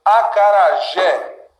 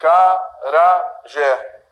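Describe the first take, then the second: First: Slow "Acarajé" with a strong final JÉ; stress on last syllable. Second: "Acarajé" slowly, broken syllable by syllable; divided into syllables. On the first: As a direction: lean on the JÉ of "Acarajé". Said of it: "é sempre a última". ("Acarajé" com força no JÉ) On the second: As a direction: say "Acarajé" as a-ca-ra-jé with gaps. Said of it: "nós vamos dividir aqui". ("Acarajé" separado em sílabas, devagar) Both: Shown as a demonstration.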